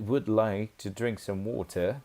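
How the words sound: It is spoken in a British English accent. "que seria no inglês britânico"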